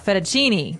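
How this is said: It is said with an American accent. "in American, we say uh"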